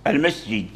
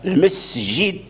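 First: The s sound is blurred and not distinct. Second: The s sound is clear with an audible hiss. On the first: The speaker calls it wrong. "فتصير كلمة المسجد المسجد المسجد يعني لم تظهر" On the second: The speaker calls it right. "فالمسجد هكذا المسجد لا بد"

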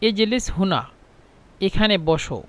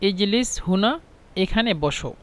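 The two takes are said the same way.

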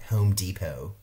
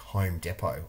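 First: It is said in an American accent. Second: It is said in a non-American accent.

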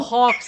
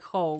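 First: The word ends with a clear ks sound. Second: The word ends in a vowel, no ks. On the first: "And also Hawks" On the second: "I will never pronounce like Ho"

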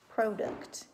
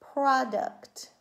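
First: The first vowel is long, like 'pro'. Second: The first vowel is short, like 'prod'. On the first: The speaker calls it wrong. "The first syllable would be open, the second syllable would be closed. ... That doesn't sound right" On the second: The speaker calls it right. "That would make my first syllable closed and my second syllable closed. ... That sounds right"

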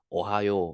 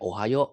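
First: The final vowel is long. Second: The final vowel is short. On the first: The speaker calls it right. "แต่ต้องเป็นโอไฮโอ" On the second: The speaker calls it wrong. "ไม่ใช่แค่โอไฮโอ"

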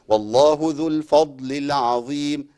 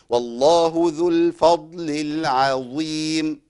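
First: The phrase is recited smoothly without strained effort. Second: The phrase is recited with exaggerated, strained articulation. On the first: The speaker calls it right. "من غير ما اعمل اي مجهود" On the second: The speaker calls it wrong. "في ناس بتقرأ كده"

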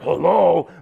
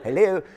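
First: It is said in a groggy, sleepy voice. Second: It is said in a clear, alert voice.

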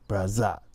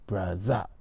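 First: The middle consonant is a buzzing z sound. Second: The same.

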